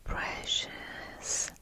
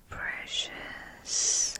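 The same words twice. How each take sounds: The two takes are said the same way.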